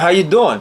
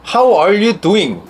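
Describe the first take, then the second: First: The words are run together casually and slurred. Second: Every word is said carefully and clearly.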